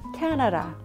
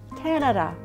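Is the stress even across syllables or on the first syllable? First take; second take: first; first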